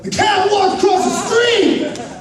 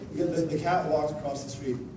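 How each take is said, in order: First: It is said with lively excitement. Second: It is said flatly, with hesitation.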